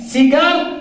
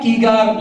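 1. تبدأ الكلمة بصوت s. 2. تبدأ الكلمة بصوت k.

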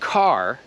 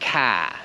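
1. Końcowy dźwięk R jest wymawiany. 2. R jest pomijane, a słowo kończy się długim A. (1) "zamiast mówić car" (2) "to oni mówią ka"

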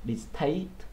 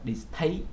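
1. Âm t được phát ra với một luồng hơi bật mạnh. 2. Âm t được phát ra với một luồng hơi bật mạnh.

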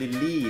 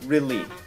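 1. คำนี้ขึ้นต้นด้วยเสียง L 2. คำนี้ขึ้นต้นด้วยเสียง R (1) "ไม่ใช่ lily" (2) "โดยเฉพาะคำว่า really"

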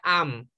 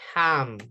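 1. La h inicial es muda. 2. La h inicial es un sonido aspirado parecido a la J. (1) "No se pronuncia am" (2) "la letra H suena como una J"

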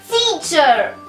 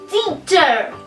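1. Произносится как одно плавное слово: tee-cher. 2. Произносится как одно плавное слово: tee-cher.

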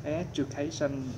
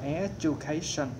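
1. Phụ âm ở giữa nghe như âm j. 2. Phụ âm ở giữa nghe như âm j.

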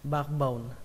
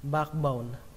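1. Âm k ở giữa được lướt qua. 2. Âm k ở giữa được lướt qua.

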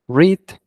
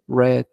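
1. La vocal es larga, como en reed. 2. La vocal es corta, como en red. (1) "este se pronuncia read" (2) "en pasado se pronuncia red, como el color rojo"

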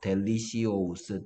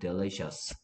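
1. 이 단어는 별도의 'see-os' 소리로 끝나요. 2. 이 단어는 하나의 'shus' 소리로 끝나요. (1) "델리시오스라고 외웠어. 너무 쓰기 어려워서" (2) "그러니까 델리셔스였어요"

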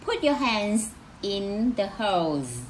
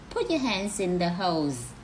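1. Câu này được nói với tốc độ bình thường. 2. Câu này được nói nhanh và nối liền các từ.

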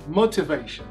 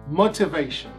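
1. Pronunciada com sotaque britânico. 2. Pronunciada com sotaque britânico.

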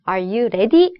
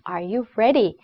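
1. ready는 한국식 소리로 발음됩니다. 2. ready는 원어민 같은 영어 소리로 발음됩니다. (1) "아니고" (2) "ready 이런 발음이다"

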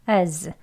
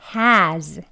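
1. h가 없는 약한 슈와 모음, 강세 없음. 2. h가 있는 완전한 열린 모음, 강세 있음. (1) "앞에 H 소리가 없고요. 슈아 어 소리 어 하고 z로 그냥 끝나는" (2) "strong한 발음 먼저"

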